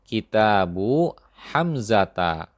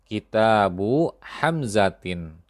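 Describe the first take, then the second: First: The name ends with the sound 'a'. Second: The name ends with the sound 'in'. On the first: The speaker calls it right. "Contoh ini sudah benar" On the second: The speaker calls it wrong. "Contoh ini keliru"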